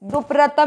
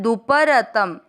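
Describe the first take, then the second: First: The p and r are joined as a cluster. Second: A full vowel separates the p and r. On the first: The speaker calls it wrong. "दुप्रतम नहीं करना है" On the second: The speaker calls it right. "इस शब्द का ध्यान रखना है"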